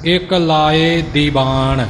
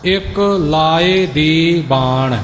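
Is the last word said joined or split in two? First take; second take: joined; split. First: The last word is read as one joined word. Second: The last word is read as two separate parts. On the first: The speaker calls it wrong. "ਇਉਂ ਛਪਿਆ ਹੁੰਦਾ ਹੈ" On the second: The speaker calls it right. "ਦੀ ਵੱਖਰਾ ਬਾਣ ਵੱਖਰਾ"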